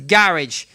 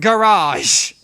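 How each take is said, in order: First: It is said with a British pronunciation. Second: It is said with an American pronunciation. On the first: The speaker calls it right. "in the goddamn U K we pronounce it as garage" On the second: The speaker calls it wrong. "not garage"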